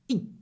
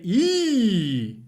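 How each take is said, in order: First: The vowel is short and clipped. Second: The vowel is held long. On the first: The speaker calls it right. "It's e" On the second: The speaker calls it wrong. "Don't say e"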